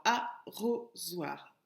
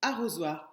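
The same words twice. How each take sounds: First: "arrosoir" split into three separate syllables. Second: Said in the usual way. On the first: Shown as a demonstration. Teacher counting out the syllables for pupils, "arrosoir" syllable by syllable. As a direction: slowly break "arrosoir" into a, ro, zoir. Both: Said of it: "trois syllabes".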